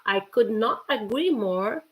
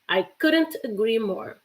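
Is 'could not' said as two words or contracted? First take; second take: two words; contracted. First: Could not is said as two full words. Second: Could not is contracted into one word. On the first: "couldn't is the contraction of could not" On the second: "or couldn't"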